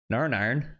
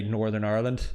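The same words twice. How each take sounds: First: "Narn Iron" run together in Northern Irish accent; Northern Irish accent, rising at the end. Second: Said in the usual way. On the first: Shown as a demonstration. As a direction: imitate a Northern Irish character, syllables swallowed. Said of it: "how they'd say Northern Ireland". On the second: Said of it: "this is how they'd say".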